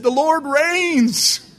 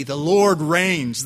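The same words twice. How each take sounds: First: High, loud, long-drawn comic proclamation; triumphant cry. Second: Said in the usual way. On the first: Retold or imitated. Driver throwing the sermon title back after the crash, hammed-up holler.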